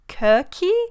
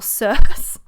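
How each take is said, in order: First: The name begins with a K sound. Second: The name begins without a K sound. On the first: "the absolute correct pronunciation of it was with the K sound" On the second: "people say it as Circe"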